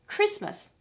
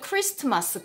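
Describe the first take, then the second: First: The middle t sound is silent. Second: The middle t sound is pronounced. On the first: The speaker calls it right. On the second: The speaker calls it wrong.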